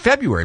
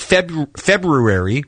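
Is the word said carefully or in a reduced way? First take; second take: reduced; carefully. First: The word is said in a quick, reduced way. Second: The word is said with every syllable fully sounded. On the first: "because it's just a little bit easier" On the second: "which is technically correct"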